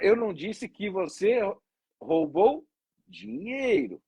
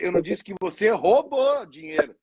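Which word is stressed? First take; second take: dinheiro; roubou. First: The stress is on "dinheiro". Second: The stress is on "roubou".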